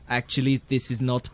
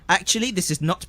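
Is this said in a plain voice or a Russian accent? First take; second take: Russian accent; plain. First: It is said in a put-on Russian accent. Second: It is said in the speaker's normal accent.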